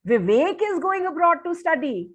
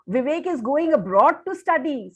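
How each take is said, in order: First: It sounds incredulous, stressing Vivek. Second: It sounds admiring, full of awe.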